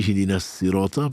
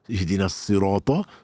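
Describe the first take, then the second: First: The s sound is light and plain. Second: The s sound is heavy and emphatic. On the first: "parce que c'est un sin" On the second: "parce que c'est un sod"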